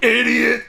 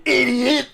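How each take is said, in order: First: "Idiot!" shouted high through laughter; laughing while echoing "Idiot!"; imitating the insult. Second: Loud, high mock "Idiot!" shout; playful insult. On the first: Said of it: "the way you say idiot like that". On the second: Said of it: "I love the way you say idiot like that".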